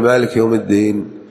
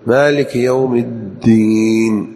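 First: The 'd' sound in the last word is single. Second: The 'd' sound in the last word is doubled. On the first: The speaker calls it wrong. "لا يقول" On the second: The speaker calls it right. "الدال في الدين محققة مشددة"

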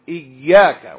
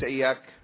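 First: The 'y' sound is doubled and held longer. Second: The 'y' sound is single and short. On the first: It means 'you alone'. The speaker calls it right. "إياك بتشديد الياء" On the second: It means 'the light of the sun'. The speaker calls it wrong. "بتخفيف الياء"

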